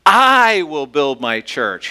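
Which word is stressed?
I. The stress is on "I".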